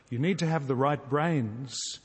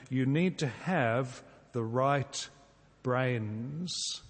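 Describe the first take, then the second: First: Said in the usual way. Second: Slow and deliberate. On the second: Shown as a demonstration. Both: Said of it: "I've changed this into this little phrase".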